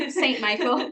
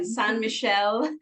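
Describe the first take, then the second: First: Said in the usual way. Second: "Saint Michel" said the French way, slowly; French-style "san mee-SHEL"; French pronunciation. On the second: Shown as a demonstration. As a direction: try a careful French accent on "Saint Michel". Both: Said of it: "here we go again".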